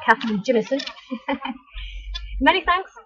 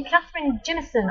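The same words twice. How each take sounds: First: Scottish accent. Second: Said in the usual way. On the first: Shown as a demonstration. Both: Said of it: "I wanna say it in a Scottish accent".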